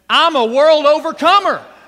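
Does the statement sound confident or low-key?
confident. It is said with strong, confident conviction.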